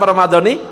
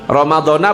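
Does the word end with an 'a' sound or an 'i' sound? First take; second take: i; a. First: The word ends with an 'i' vowel. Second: The word ends with an 'a' vowel. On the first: The speaker calls it right. "yang benar Ramadhani" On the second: The speaker calls it wrong. "Bukan Ramadhanah"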